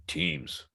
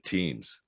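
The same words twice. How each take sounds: First: A hushed whisper of a single word, Teams. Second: Said in the usual way. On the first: Retold or imitated. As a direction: answer with a secretive whisper, as if it were classified. Guy answers in retold bar story.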